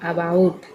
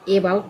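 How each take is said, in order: First: The first vowel is said as a short 'uh'. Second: The first vowel is said as a long 'ay'. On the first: The speaker calls it right. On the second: The speaker calls it wrong.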